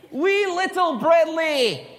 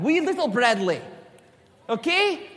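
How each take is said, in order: First: High, drawn-out mock-Scottish accent; slow, exaggerated Scottish lilt, pitched way up; bad Scottish accent. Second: Playful mock-Scottish accent; lightly put-on Scottish accent; bad Scottish accent. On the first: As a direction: ham up a terrible Scottish accent. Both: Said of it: "That's my really bad Scottish accent".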